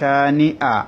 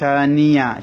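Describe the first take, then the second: First: The vowels are split by a glottal catch. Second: The vowels are joined by a y sound. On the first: The speaker calls it right. "হামজা একটু ধাক্কা হবে ... এভাবে" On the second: The speaker calls it wrong. "শানিয়া যেন না হয়"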